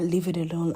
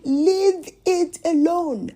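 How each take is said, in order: First: Said in the usual way. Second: Slow, raised-voice command; retold firm order. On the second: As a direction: order it word by word, louder and higher. Acted man's firm order.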